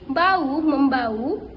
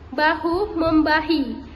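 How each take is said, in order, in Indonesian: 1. Bunyi h dihilangkan di kedua kata. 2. Bunyi h diucapkan di kedua kata. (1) "pelafalan tidak bakunya" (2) "Lafalan bakunya"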